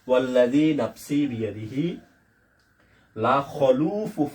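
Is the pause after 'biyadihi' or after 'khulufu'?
after biyadihi. The pause comes after 'biyadihi', before 'la khulufu'. The reader understands the meaning. The speaker calls it right. "এখানে এসে একটু থেমে যাব"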